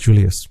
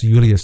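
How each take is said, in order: First: The name begins with a J sound. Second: The name begins with a Y sound. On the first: This is how the name is said today. The speaker calls it wrong. "not Julius" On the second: This is how the Romans said the name. The speaker calls it right. "would have been pronounced Julius"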